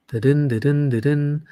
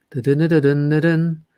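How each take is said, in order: Both takes have the same delivery.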